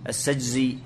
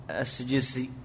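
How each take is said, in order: First: السجزي with a voiced z, as-sijzi; السجزي repeated with z after the correction; corrected name. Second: السجسي with a plain s sound, as-sijsi; السجسي read with s, the mistaken reading; wrong name. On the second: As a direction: say السجسي ending in -sijsi, with s not z. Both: Real, not acted.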